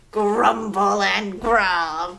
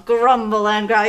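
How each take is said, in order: First: Lower, slow growly voice; playful dino growl; mock growly T-Rex. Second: Said in the usual way. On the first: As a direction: grumble it like a dinosaur. Playing T-Rex with kids.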